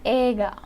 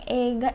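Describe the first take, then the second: First: The first vowel is a plain long e. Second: The first vowel glides from e to i. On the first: It is how Japanese speakers say it. The speaker calls it right. "Yang betul adalah ega" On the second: It is how foreign learners say it. The speaker calls it wrong. "itu sebutan kita aja orang asing"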